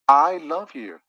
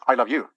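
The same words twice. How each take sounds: First: The stress falls on the word I. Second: The stress falls on the word you. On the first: Someone else does not love you. "He doesn't" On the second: No one else is loved. "I don't love anybody else"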